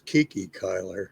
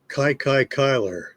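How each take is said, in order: First: The nickname does not rhyme with the surname. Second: The nickname rhymes with the surname's first syllable. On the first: The speaker calls it wrong. "I always thought it was Kiki Kyler, but uh, it's not" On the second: The speaker calls it right. "it rhymes with the first syllable of his last name"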